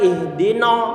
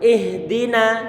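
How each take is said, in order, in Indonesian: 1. Vokal akhir terdengar berat dan bulat. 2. Vokal akhir terdengar ringan dan terbuka. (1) "terdengar tebal no. Ini bacaan yang salah" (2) "pastikan na ini yang terdengar adalah na bukan no, tapi na. Kita buka mulut kita"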